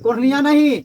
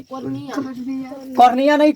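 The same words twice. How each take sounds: First: Said in the usual way. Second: cornea नहीं stretched out very slowly; teasing slow repeat for the class; slow drawn-out repeat. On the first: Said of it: "cornea नहीं repeated slowly". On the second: Shown as a demonstration. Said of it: "cornea नहीं repeated".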